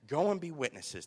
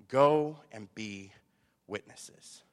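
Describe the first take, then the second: First: Said in the usual way. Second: Slow, loud GO, then dropping on witnesses; solemn command. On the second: Acted. Preacher quotes Christ's final statement, solemn command. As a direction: space out "Go and be witnesses" with pauses.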